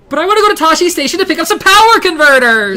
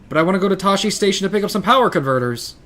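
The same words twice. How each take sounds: First: It is said in a put-on character voice. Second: It is said in his normal voice.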